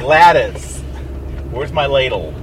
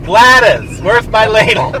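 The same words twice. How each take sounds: First: A hint of an old lady; barely voiced old lady asking about a ladle. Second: Put-on high, loud old lady on the phone. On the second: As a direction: really ham up the old lady. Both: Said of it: "'Cause I'm an old lady".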